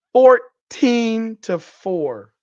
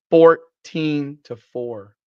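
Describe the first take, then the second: First: "Fourteen" stretched out high and loud; incredulous stress. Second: "Fourteen" split slowly and hit loud; slow, punched stress on "Fourteen"; emphatic repeat. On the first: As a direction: draw out "Fourteen" very slowly, pitched up and loud. Repeats score again, harder. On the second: Repeats the score in disbelief. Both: Real, not acted.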